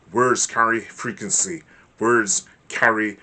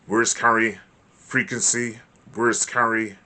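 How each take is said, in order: Both takes have the same delivery.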